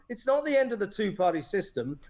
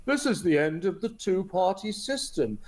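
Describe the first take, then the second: First: Said in the usual way. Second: Lightly voiced smug pundit line; mock broadcaster pundit. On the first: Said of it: "No, no". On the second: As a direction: parrot the pundits with a touch of mockery. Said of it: "how are they interpreting it on the B B C".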